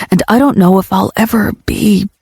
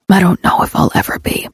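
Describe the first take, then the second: First: Said in the usual way. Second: Voiceless, broken repeat; man repeating his confession in a raspy hush; rasped repeat. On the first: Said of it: "I'm all fucked up". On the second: A narrator's reading. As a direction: breathe it out, barely voiced. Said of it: "he rasps".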